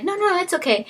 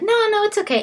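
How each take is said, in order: First: Squeaky high, brushing it off again; light high voice, waving it away; high polite refusal. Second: Squeaky high, brushing it off; high polite refusal. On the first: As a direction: falsetto polite decline. Secretary declining a second time. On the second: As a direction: play it light and high, no fuss. Secretary politely declining offer. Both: Retold or imitated.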